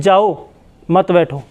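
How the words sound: The pause comes after 'jao'.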